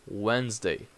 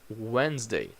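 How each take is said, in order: The two takes are said the same way.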